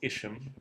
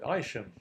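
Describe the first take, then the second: First: The name is said in the common American way. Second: The name is said in the local English way. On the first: This is how outsiders usually say the name. The speaker calls it wrong. "the name Isham is so frequently mispronounced. Uh, often people say Isham" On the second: This is how people in the town say the name. The speaker calls it right. "we call it Isham in these parts"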